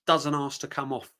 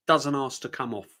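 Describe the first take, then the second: No difference in how they are said.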